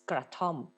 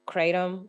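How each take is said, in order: First: It is said the local Thai way. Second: It is said the usual English-speaking way. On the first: This is how local people say the word. "how we pronounce it is kratom" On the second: This is how outsiders know the word. "as you guys may know it"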